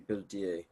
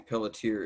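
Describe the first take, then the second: First: The name is said with a French pronunciation. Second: The name is said with an American pronunciation. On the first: The speaker calls it right. "It really should be pelletier. French" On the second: The speaker calls it wrong. "in America we usually say pelletier"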